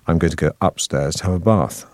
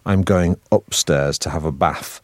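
First: It is said in received pronunciation. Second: It is said in a northern Manchester accent.

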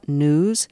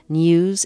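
First: No y sound comes before the vowel. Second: A y sound comes before the vowel. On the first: The speaker calls it wrong. "instead of news" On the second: The speaker calls it right. "Could Terry Gross be taught to pronounce N-E-W-S, news"

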